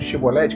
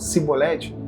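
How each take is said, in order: First: The word begins with a 'sh' sound. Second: The word begins with an 's' sound. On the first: This is the form the outsiders could not say. "que eles não conseguiam falar" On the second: This form reveals that the speaker is an outsider. "eles falavam cibolete"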